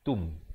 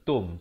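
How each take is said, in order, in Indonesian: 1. Vokalnya berbunyi seperti 'u'. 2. Vokalnya berbunyi seperti 'o'. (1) "tetapi tum. T U M bukan T O M" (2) "bukan tum"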